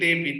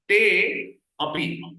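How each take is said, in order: First: The two words are fused into one word. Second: The two words are said separately with a gap.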